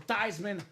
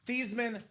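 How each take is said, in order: First: The name rhymes with Heisman. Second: The name does not rhyme with Heisman. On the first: This is the pronunciation changed for a campaign slogan. "so we can campaign for Theismann for the Heisman" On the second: This is the original family pronunciation. "change your last name from Thiesman"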